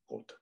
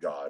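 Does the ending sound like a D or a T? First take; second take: T; D. First: It ends almost like a T sound. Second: It ends in a plain D sound.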